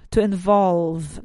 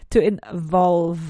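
First: "to involve" slow, with a buzzing V; slow model pronunciation. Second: "To involve" slow, with a clear buzzing V; slow vibrating V. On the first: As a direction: stretch "to involve" so the V vibrates. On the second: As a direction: let the V in "To involve" hum. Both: Shown as a demonstration. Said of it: "to pronounce that V sound".

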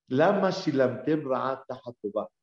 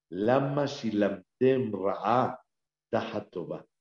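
First: Said in the usual way. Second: Lama shilamtem ra'a tahatova, slowly and deliberately; Lama shilamtem ra'a tahatova, paced slowly for the listeners; slow recitation. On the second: Shown as a demonstration. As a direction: spell out each word of Lama shilamtem ra'a tahatova unhurried.

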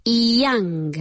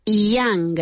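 No difference in how they are said.

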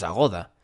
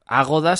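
First: Agoda with the middle syllable stressed. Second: Agoda with a strong opening A; stress on first A. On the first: Podcaster concluding there is no accent, Agoda stressed on GO. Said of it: "no lleva acento en la A". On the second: Podcaster reasoning about the written accent, Agoda stressed on first A. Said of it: "si llevara acento en la A". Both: Shown as a demonstration.

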